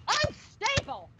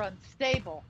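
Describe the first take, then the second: First: UNSTABLE shrieked high and drawn out; incredulous, indignant high squeal; outraged echo. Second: Said in the usual way. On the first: Acted. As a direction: throw the insult back in a high shriek. Mother echoes son's insult, outraged.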